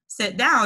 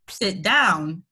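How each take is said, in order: First: It is said in a high, soft voice. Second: It is said in a deep, firm voice. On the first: The command is not taken seriously. "it sounds like a Teletubby saying it" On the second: The command is obeyed. "he has a very deep voice too"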